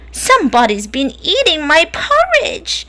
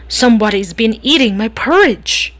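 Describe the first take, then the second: First: It is said in a tiny, squeaky voice. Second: It is said in a deep, growly voice.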